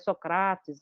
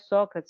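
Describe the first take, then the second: First: It is said with a reconstructed ancient Greek pronunciation. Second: It is said with the ordinary Portuguese pronunciation. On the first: "a gente recuperar a pronúncia" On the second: "não é Sócrates"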